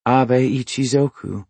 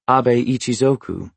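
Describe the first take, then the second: First: Lightly intoned book title. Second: Said in the usual way. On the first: A narrator's reading. Woman reads out the samurai book's title, intoning. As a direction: recite the title with measured, slightly raised pitch. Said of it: "she intoned".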